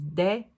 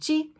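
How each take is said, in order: First: It is said like 'deh', European style. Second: It is said like 'jee', Brazilian style.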